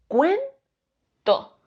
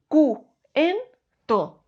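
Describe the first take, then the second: First: The vowels u and e are joined together. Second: The vowels u and e are split apart. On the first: The speaker calls it right. "en un solo golpe de voz" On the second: The speaker calls it wrong. "no diríamos"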